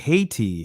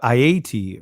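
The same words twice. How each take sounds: First: The first syllable sounds like the word hate. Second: The first syllable does not sound like hate. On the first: The name carries an echo of hate. The speaker calls it wrong. "the similarity to the word hate" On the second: The name is said the way its people say it. The speaker calls it right. "is what we should be referring to the name of"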